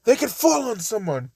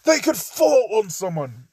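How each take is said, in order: First: Put-on a higher retake in a British accent; lightly voiced British accent. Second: Put-on British accent. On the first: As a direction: repeat it with a proper British lilt. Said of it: "Yet again, I made him British". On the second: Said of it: "Ito's just saying".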